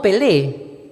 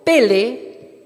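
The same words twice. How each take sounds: First: Pelé stressed on the final é, pe-LÉ; pelé, land hard on the last syllable like the Brazilian player; pelé said slowly as the wrong example, stress on LÉ; footballer's name. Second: Pele said with the stress on the first e, PE-le; pele, lean on the opening PE and let le fall away; Hebrew pele. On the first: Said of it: "como el futbolista brasilero". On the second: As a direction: teach pele as PE-le, not like the footballer. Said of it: "con tilde en la primera E". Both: Shown as a demonstration.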